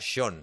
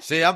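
First: The name is said as one syllable, shon. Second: The name is read as spelled, se-an. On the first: This is how the name is actually pronounced. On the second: This is how the name is written.

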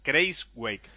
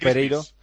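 First: The name ends with a 'wake' sound. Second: The name ends with a 'vik' sound. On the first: The speaker calls it right. "me lo dijo un amigo que se interesó por saber cómo se pronunciaba tal cual" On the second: The speaker calls it wrong. "Porque yo decía Grijsvik"

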